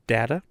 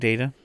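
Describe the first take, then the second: First: The first vowel sounds like 'dah'. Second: The first vowel sounds like 'day'. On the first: The speaker calls it wrong. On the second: The speaker calls it right.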